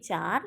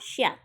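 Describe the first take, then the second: First: The word begins with a 'ch' sound. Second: The word begins with an 'sh' sound.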